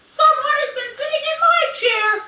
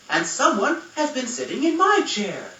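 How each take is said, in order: First: It is said in a squeaky voice. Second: It is said in a middle-sized voice.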